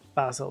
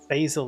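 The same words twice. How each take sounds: First: The word is said with a British pronunciation. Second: The word is said with an American pronunciation. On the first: "Basil is it English, like British English" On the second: "basil is American"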